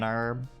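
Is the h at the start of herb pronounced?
no. The word begins without any h sound. The speaker calls it wrong. "We don't say an herb"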